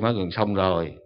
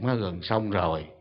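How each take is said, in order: First: The voice sounds heavier and stern. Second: The voice sounds calm and gentle. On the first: The speaker is becoming displeased. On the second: The speaker is still patient.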